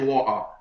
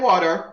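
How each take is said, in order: First: It is said in a British accent. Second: It is said in an American accent.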